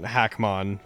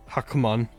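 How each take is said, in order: First: The first vowel sounds like the a in hack. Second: The first vowel sounds like the u in huck.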